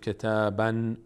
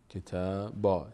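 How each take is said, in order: First: The word ends with an n sound. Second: The word ends with a long a vowel. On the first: The speaker calls it wrong. "در هنگام وقف کردن و ایستادن روی تنوین ان نباید بگیم کتابن" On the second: The speaker calls it right. "اگر وای میستیم باید بگیم کتابا"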